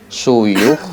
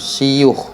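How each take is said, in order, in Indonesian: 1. Vokal pertama adalah bunyi 'u' yang membulat. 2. Vokal pertama adalah bunyi 'i' depan. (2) "wa kasriha"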